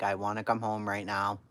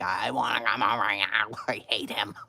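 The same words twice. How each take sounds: First: Said in the usual way. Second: Hammed-up bawling complaint, breaking into laughter; retold tantrum wail. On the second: Daughter begging mother to bring her home, wailing. Repeats plea louder to mother.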